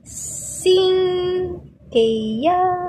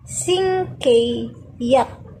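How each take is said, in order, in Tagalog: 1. Mataas ang tono ng huling pantig. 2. Mababa ang tono ng huling pantig. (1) "Dapat ito i pataas" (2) "ito pababa"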